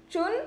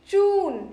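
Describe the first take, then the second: First: चुन with a short u; short vowel in चुन. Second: चून with a long, higher oo; चून, held high on the oo. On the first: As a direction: keep चुन brief. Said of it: "छोटी ऊ की मात्रा यानी". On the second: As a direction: draw out the vowel in चून. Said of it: "स्वर थोड़ा सा खींचना है". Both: Shown as a demonstration.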